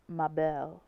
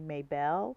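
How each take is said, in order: First: The name is said as others pronounce it. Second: The name is said as an American would read it. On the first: This is how other people say the name. The speaker calls it right. "but it's Mabel" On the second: This is how the name looks to the speaker. The speaker calls it wrong. "as an American, I see Maybelle"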